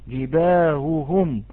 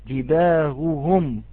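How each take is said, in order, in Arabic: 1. الهاء ضعيفة، تشبه الهمزة المسهلة. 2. الهاء ضعيفة، تشبه الهمزة المسهلة.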